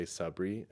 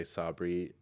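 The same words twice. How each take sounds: First: Sabri said "suh-BREE", short first vowel. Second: Sabri said "SAH-bree", open first vowel. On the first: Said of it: "people from other parts of the world". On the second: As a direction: give Sabri a full "ah" in SAH. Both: Shown as a demonstration.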